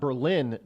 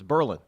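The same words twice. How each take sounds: First: It is said the standard, non-local way. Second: It is said the local New Hampshire way.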